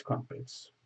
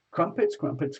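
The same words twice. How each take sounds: First: Whispered "crumpets", breathy and hushed. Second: Said in the usual way. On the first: Pretend. Chanting crumpets, then whispering.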